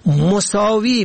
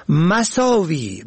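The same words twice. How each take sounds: First: مساوی said "mosaavi", rounded o first; damma on first letter. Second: مساوی said slowly "masaavi", open a first; fatha on first letter. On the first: Teaching the word for equal, short o vowel. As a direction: say مساوی as "mo-saa-vi". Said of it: "به ضم اول". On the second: Teaching the word for vices, short a vowel. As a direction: say مساوی as a drawn-out "ma-saa-vi". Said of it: "به فتح اول". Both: Shown as a demonstration.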